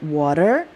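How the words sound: It is said in an American accent. "dia T-nya water. Itu American English"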